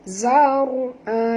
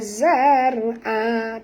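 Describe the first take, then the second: First: The r sound is heavy and thick. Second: The r sound is light and thin. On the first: The speaker calls it right. "Kita kena baca tebal" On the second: The speaker calls it wrong. "jangan baca zar'a, tak betul"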